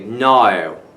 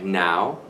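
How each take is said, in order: First: It is said in a British accent. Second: It is said in the speaker's plain accent.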